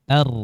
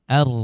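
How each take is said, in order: The two takes are said the same way.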